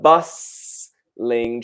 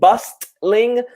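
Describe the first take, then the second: First: The T sound is left silent. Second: The T sound is clearly pronounced. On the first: The speaker calls it right. "the T is silent here" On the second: The speaker calls it wrong. "not bustling"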